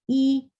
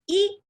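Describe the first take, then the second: First: The vowel is said short, even and moderate. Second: The vowel is said with a jumpy, abrupt push. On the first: The speaker calls it right. "Very moderate sound. ... So like this" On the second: The speaker calls it wrong. "do not make a jumpy sound. ... Not like this"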